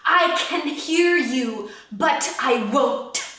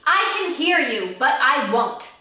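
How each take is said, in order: First: The consonants are spoken with heavily exaggerated force. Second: The consonants are spoken in a plain, ordinary way. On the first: "over exaggerate, like go like crazy with your consonants" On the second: "Speak it with me"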